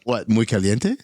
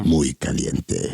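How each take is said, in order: First: Spanish accent. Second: Low, slow Spanish accent. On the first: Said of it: "I didn't like the way you said that". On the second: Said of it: "should I have said it like this?". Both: Shown as a demonstration.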